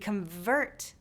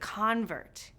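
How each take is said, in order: First: The stress is on the second syllable. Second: The stress is on the first syllable. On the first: It is used as a verb. "these two syllable verbs often stress the second syllable" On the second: It is used as a noun. "The nouns often stress the first syllable"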